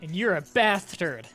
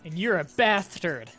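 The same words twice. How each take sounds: First: Bastard is said with a lisp, like bath turd. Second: Bastard is said with a lisp, like bath turd.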